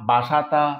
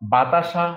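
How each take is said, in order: First: The s sound comes before the t sound. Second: The t sound comes before the s sound. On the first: The sounds have swapped places in everyday speech. "বাসাতা হয়ে গেছে" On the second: This is the original form of the word. "বাতাসাটা ছিল"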